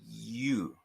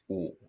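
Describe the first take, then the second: First: The vowel starts with one sound and glides. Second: The vowel stays rounded and steady throughout. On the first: "in English, we start with a sound and finish with another" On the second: "we start with a rounded sound altogether"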